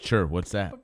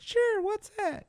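First: It is said in his normal voice. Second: It is said in a much higher voice.

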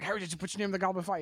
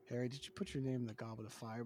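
First: It is said fast and intensely. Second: It is said calmly and evenly.

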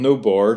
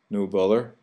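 First: The 'th' sound in the second word is dropped. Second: The 'th' sound in the second word is pronounced. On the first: "And no bore, too" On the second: "instead of no bother"

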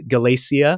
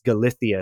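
First: It is said in American-influenced Spanish without a lisp. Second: It is said in Spain's Spanish with a lisp.

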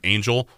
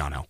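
First: The name is said with English pronunciation. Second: The name is said with Spanish pronunciation. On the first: Some people say it this way. The speaker calls it wrong. "I've heard some people call him Angel" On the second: This is how he says it himself. The speaker calls it right. "it should be Angel"

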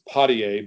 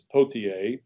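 First: The name is said the local town way. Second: The name is said the original way. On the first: This is how people in the town say it. "In Woonsocket, it comes to pronounce" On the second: This is how the name is really said. "but it's"

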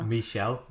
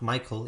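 First: The name sounds like Michelle, with a sh sound. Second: The name sounds like Michael, with a k sound. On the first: The speaker calls it right. "It probably is pronounced Michelle" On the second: The speaker calls it wrong. "I don't think it's pronounced Michael"

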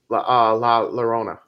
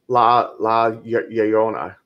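First: The double L sounds like an English L. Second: The double L sounds like an English Y. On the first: "I like how you said La Llorona, and I know a lot of people do say it like that" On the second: "It's a Y. Two L's is supposed to be, it's like La Llorona"

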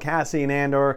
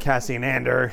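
First: The name is said in the speaker's usual way. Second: The name is said the way a character says it.

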